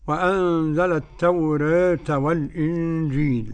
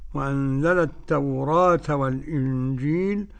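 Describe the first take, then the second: First: The vowel after r is between a and e. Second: The vowel after r is a fully open a. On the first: "وتقليلها" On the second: "بفتح التوراة"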